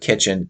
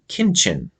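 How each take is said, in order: First: It is said with a plain t before ch. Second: It is said with an n before ch. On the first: This is the usual pronunciation. "instead of kitchen" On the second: This is how a cousin said it as a child. "he would say kinchin"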